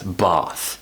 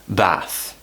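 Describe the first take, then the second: First: It is said in a standard RP British accent. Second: It is said in a northern English accent. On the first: "the traditional way of pronouncing this, the R P way" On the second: "in various parts of the north, they will pronounce it as"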